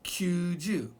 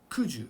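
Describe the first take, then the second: First: "kyuju" with a y glide after the k; correct pronunciation. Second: "kuju" with no y glide after the k; wrong pronunciation. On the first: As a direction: say "kyuju" as kyoo-joo. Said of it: "ninety can only be". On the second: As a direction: say "kuju" as plain koo-joo. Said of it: "Cannot be kuju". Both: Shown as a demonstration.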